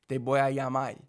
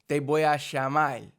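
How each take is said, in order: First: Plain ll sound and a final l sound. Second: A sh sound and a final l sound. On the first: "A lot of people change the R's to the L's" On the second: "in Argentina they do the double L as a sh sound"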